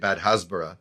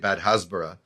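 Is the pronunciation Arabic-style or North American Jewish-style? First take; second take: Arabic-style; Arabic-style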